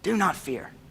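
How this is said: It is said gently like a comforting dad.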